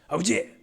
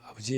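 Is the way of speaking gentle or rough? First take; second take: rough; gentle. First: It is said in a rough, manly way. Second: It is said in a gentle, womanly way.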